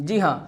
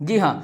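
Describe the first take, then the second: No difference in how they are said.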